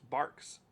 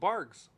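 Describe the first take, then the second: First: The word is said with a k sound. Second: The word is said with a g sound. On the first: The speaker calls it right. "It's Barks" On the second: The speaker calls it wrong. "that's a Q, not a G"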